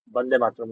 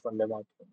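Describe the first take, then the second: First: The first word begins with a B sound. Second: The first word begins with a V sound. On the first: The speaker calls it right. "Bande Matram, not Vande Matram" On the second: The speaker calls it wrong. "not Vande Matram"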